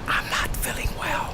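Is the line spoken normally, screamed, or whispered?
whispered. It is spoken in a whisper. "Whisper with me"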